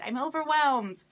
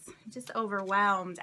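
First: Overwhelmed. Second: Said in the usual way. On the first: Real, not acted.

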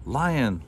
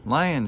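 First: Camel calls Lion's name, a little raised; first call, falling at the end. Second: Second call pitched higher and a bit louder. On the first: Camel hails Lion at the dump, mildly raised call. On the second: Camel calls Lion again across the dump, higher call. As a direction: call again, higher, to catch his ear. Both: A narrator's reading. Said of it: "shouted Camel".

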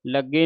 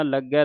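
First: ਲੱਗੇ ending in a closed e; wrong pronunciation demo. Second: ਲੱਗੈ ending in an open ai; correct pronunciation demo. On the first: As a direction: narrow the final vowel, ਲੱਗੇ as "lagge". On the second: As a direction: widen the final vowel, ਲੱਗੈ as "laggai". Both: Shown as a demonstration. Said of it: "ਲੱਗੇ ਨਹੀਂ ਪੜ੍ਹ ਦੇਣਾ".

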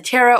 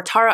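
First: Tara in the first of two possible pronunciations. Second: Tara with its vowel changed, as an alternative; alternative pronunciation of Tara. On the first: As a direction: offer one way of saying "Tara". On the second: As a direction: offer another way of saying "Tara". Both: Shown as a demonstration. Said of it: "not really sure how she pronounces it".

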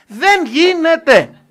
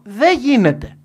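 First: Δεν γίνεται drawn out slowly, higher and much louder, each word hammered; slow emphatic repeat. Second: Raised and flat, settling the question for the room; firm loud answer. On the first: Speaker repeating to the audience that it cannot be done, slow and hammered. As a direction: lean on δεν and stretch the line out like a final verdict. Repeating his verdict as climax. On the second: Speaker to business audience, flatly declaring it impossible, loud. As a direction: hit it hard and plain, a verdict. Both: Real, not acted.

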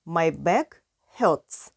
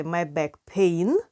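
First: "hurts" set apart after a pause, falling; teacher gives the right phrase "my back hurts"; correct form. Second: Said in the usual way. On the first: Shown as a demonstration. Teacher corrects students, pausing before "hurts". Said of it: "Ми кажемо my back hurts". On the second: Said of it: "Ми не можемо сказати my back pain".

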